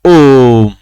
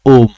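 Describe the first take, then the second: First: The first vowel is drawn out long. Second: The first vowel is said short. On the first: The speaker calls it right. "हमने यहां ओ का उच्चारण लंबा किया।" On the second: The speaker calls it wrong. "ये उच्चारण गलत है।"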